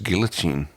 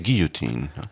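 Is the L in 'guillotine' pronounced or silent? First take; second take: pronounced; silent. First: The L sound is clearly pronounced. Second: The L sound is left silent. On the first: This is the English pronunciation. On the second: This is the French pronunciation.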